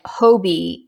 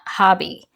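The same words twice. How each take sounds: First: Hobie said with a long o, like the o in hope; Hobie, HOH-bee, long open o then bee; Hobie pronounced HOH-bee. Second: Hobby said with a short o, like the o in hot; Hobby, HAH-bee, like the hobby store; Hobby pronounced HAH-bee. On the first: Yarn reviewer shows her way to say the brand, Hobie with a long o. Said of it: "if I say it Hobie". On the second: Yarn reviewer shows the way she avoids, Hobby with a short o. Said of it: "and not Hobby". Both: Shown as a demonstration.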